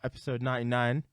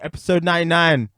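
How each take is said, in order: First: It is said with low energy. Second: It is said with high energy.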